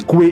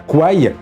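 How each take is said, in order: First: The name ends with an 'ay' vowel sound. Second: The name ends with an 'eye' vowel sound. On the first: It means tributary. The speaker calls it right. "je m'efforce de prononcer Koué" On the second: It means buffalo and is also an insult. The speaker calls it wrong. "et non pas Kouaï"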